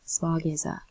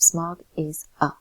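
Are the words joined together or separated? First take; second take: joined; separated. First: The words run together with no breaks. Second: Each word is said separately with breaks. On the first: The speaker calls it right. "The S connects with the A" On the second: The speaker calls it wrong. "You don't have to separate each of those words"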